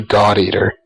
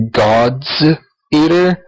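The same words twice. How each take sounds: First: "God Eater" with no S after "God"; God without the S. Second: "God's Eater" with the S on "God's" sounded; "God's", then "Eater" apart, final S clearly voiced. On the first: Showing friends the game's pronunciation, "God Eater" without an S. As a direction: say "God Eater", dropping the possessive S. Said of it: "they always pronounce it just God Eater". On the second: Explaining the spelling to friends, "God's Eater" with its S. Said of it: "it's spelt". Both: Shown as a demonstration.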